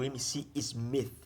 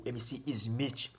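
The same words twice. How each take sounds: First: "Smith" ending in an English th; English-style pronunciation. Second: "Smith" said as "iz-MITCH". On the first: Vlogger trying a funk MC's name, "Smith" with English th. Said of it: "ou [name], é assim eu chamaremos". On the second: Vlogger settling what to call the MC, "[name]" said "Ismitch". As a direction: end "Smith" in a Brazilian "tch" sound. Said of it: "é assim eu chamaremos". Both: Shown as a demonstration.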